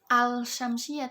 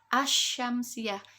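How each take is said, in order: First: The L is pronounced clearly before the SY. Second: The L merges into the following SY sound. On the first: The speaker calls it wrong. "tidak bisa dibaca dengan al-syamsiyah" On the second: The speaker calls it right. "tapi asy-syamsiyah"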